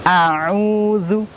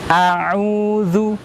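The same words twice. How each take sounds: The two takes are said the same way.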